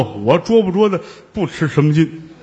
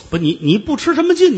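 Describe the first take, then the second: First: Chuckling, offhand, stress on 捉; laughing shrug. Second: High, louder, 劲 falling hard; indignant retort. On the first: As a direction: toss off 我捉不捉的不吃什么劲 with a laugh. Fake monk shrugs it off. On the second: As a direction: throw 不吃什么劲 back at him, stuttering in outrage. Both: Acted.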